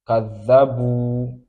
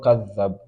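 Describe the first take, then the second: First: The word ends on a lengthened vowel. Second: The word ends on a bare consonant. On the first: The speaker calls it right. "this one has Mad" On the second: The speaker calls it wrong. "Kadhabu is not Kadhab"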